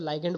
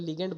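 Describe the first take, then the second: First: The first syllable sounds like 'lie'. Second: The first syllable sounds like 'lee'. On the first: "कई लोग इसको लाइगेंड बोलते हैं" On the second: "कई लोग इसको लिगेंड बोल देते हैं"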